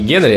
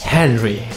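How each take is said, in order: First: The name starts with a hard G sound. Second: The name starts with a breathy H sound. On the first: The speaker calls it wrong. "не Генри" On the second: The speaker calls it right. "говорим правильно, ... а Хенри"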